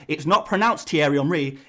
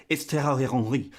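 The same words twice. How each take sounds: First: Said in the usual way. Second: Mock French pronunciation of THIERRY HENRY; French accent. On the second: YouTuber imitating French people correcting the name, French accent. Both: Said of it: "The French people are saying".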